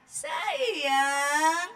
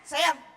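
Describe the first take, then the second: First: It is said in a soft, gentle tone. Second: It is said in a sharp, angry tone. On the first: The words and feeling both express love. The speaker calls it right. "mesti begitu" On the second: The child can tell the parent is angry. The speaker calls it wrong. "Oh dia tahu nih kita lagi marah"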